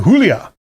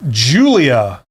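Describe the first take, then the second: First: Julia said the Spanish way, "HOO-lya"; Spanish pronunciation. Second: Said in the usual way. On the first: Shown as a demonstration. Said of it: "with a Spanish accent". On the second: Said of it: "How do you say that with a Spanish accent".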